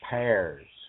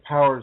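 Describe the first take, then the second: First: It is said in a Southern US accent. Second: It is said in a standard accent.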